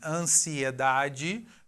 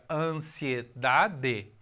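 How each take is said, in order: First: The middle vowels form two separate syllables. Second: The middle vowels merge into a single syllable.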